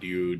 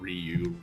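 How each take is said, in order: First: It is squeezed into a single syllable. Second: It is spread over two syllables. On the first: This is the Japanese way of saying it. "in Japanese they try to pronounce them like they're just one syllable" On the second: This is the English speakers' way of saying it. "we usually pronounce them like they're two syllables"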